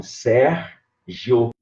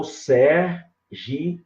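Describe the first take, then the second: First: Sérgio split in two, SÉR-GIO; two syllables. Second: Sérgio drawn out in three, SÉR-GI-O; three syllables. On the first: Teacher showing a student his name, Sérgio split as SÉR-GIO. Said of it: "com duas sílabas". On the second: Teacher showing another division, Sérgio slowly split as SÉR-GI-O. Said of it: "com três sílabas". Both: Shown as a demonstration.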